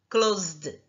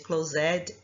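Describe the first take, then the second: First: The ending is a plain D sound. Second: The ending is an extra syllable. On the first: The speaker calls it right. "E do D" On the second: The speaker calls it wrong. "Não é assim"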